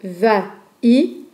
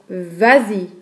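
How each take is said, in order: First: The two vowels meet with no linking sound. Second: A linking z sound joins the two words. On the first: The speaker calls it wrong. "La prononciation de va-i se bloque un peu" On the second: The speaker calls it right. "C'est plus facile de dire vas-y. On peut faire une liaison"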